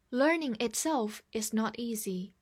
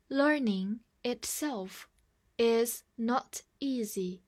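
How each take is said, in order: First: Said in the usual way. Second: Slow, clear model sentence; slow reading. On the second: Shown as a demonstration. Teacher invites the class to read along slowly. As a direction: read slowly for students to echo. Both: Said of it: "跟我慢读一遍".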